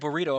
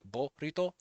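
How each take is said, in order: First: The name is said like the English word burrito. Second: The name is said with pure, clear Japanese vowels. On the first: "I will say burrito if I want to" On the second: "if you go by Japanese pronunciation, you just use Dutch vowels"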